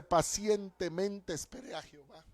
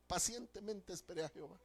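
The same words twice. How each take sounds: First: Said in the usual way. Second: Softer echo. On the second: Acted. Preacher quotes Psalm 40 twice.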